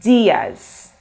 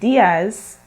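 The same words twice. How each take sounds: First: The i sound is stressed, said like ee. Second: The i sound is not stressed. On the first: The speaker calls it right. "you have to stress on the sound. So for the I, you say E" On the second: The speaker calls it wrong. "instead of saying Diaz"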